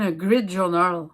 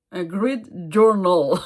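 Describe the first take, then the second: First: Said in the usual way. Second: Slow, careful English accent on grid journal. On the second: Shown as a demonstration. Telling viewers the English name, in an English accent. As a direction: say it the English way, drawn out. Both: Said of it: "avec mon accent anglais".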